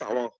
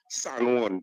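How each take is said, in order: First: The name is clipped into one short local syllable. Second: The name is said in full, both syllables clear. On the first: This is how local people say the name. "this is sour. ... Trini have their own pronunciation" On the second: This is the standard form of the name. "Instead of San Juan"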